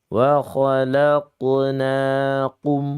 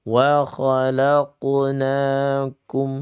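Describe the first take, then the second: Both takes have the same delivery.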